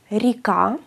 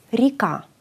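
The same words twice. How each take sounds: First: "ρικά" with ri not re, rising; modelled Russian "ρικά"; Russian pronunciation. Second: "Ρικά" with ri, falling; final model of "Ρικά"; Russian pronunciation. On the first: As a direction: say "ρικά" as rika. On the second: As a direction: say "Ρικά" as rika, settled. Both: Shown as a demonstration. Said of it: "Δεν ακούμε ρε, ακούμε ρι".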